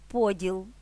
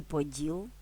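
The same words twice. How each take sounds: First: ПОділ, stress at the start; stress on first syllable. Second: ПоДІЛ, stress at the end, rising tune; stress on last syllable. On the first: (наголос на перший склад: ПОділ) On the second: (наголос на останній склад: поДІЛ) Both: Shown as a demonstration. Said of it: "залежить від наголосу".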